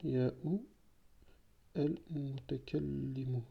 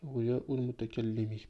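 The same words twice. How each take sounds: First: Al-mutakallimu said slowly, ending on a drawn-out u; slip of the ending. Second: Al-mutakallimi ending clearly on i; corrected ending. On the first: Teacher to class, first saying al-mutakallimu with the u ending. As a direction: stretch al-mutakallimu out, landing on the u ending. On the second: Teacher correcting himself to the class, al-mutakallimi ending on i. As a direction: fix it to al-mutakallimi with a crisp i at the end. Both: Shown as a demonstration.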